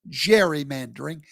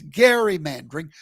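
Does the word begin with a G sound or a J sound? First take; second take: J sound; G sound. First: The word begins with a soft J sound. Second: The word begins with a hard G sound. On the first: The speaker calls it wrong. "It's not" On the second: The speaker calls it right.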